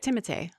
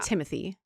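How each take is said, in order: First: The name is said with a French pronunciation. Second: The name is said with an English pronunciation. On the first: The speaker calls it right. "that's how you say it" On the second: The speaker calls it wrong. "But people misprint. They say"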